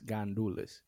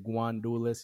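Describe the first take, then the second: First: The word begins with a plain 'gan' sound. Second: The word begins with a 'gwan' sound. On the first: This is the standard form of the word. "the right way of saying it is Gandules" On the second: This is the form used by Dominicans. "we say Guandules instead of Gandules"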